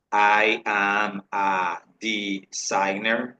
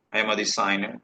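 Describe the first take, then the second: First: Very slow, word-by-word demonstration; slow model sentence. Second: Said in the usual way. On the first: Shown as a demonstration. Teacher models a job sentence for students, very slowly. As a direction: stretch each word and syllable for learners.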